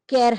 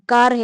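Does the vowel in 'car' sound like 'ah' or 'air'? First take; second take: air; ah. First: The vowel is a front 'air'-like sound. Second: The vowel is a long open 'ah' sound. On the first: The speaker calls it wrong. "कैर हम इसको नहीं कहते" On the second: The speaker calls it right. "तो हमें पता है कि का, कार है"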